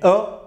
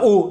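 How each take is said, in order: First: The vowel sounds like the o in 'colle'. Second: The vowel sounds like the o in 'co'. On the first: The speaker calls it right. "mais o ... Parce qu'il y a une consonne qui vient après" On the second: The speaker calls it wrong. "Pourquoi tu dis pas o"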